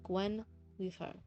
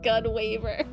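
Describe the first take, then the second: First: The name begins with a 'gwen' sound. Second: The name begins with a 'gun' sound.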